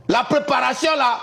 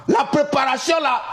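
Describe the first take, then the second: No difference in how they are said.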